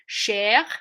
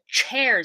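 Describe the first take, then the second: First: The first sound is soft, like sh. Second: The first sound is hard, like tch.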